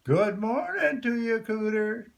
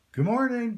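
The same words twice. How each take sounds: First: High, loud call to the pond; louder call. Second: Called out high and loud. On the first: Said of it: "a bit louder this time". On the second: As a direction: call across the pond to the hidden cooter. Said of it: "Jim said, loud, but not too loud". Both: A narrator's reading.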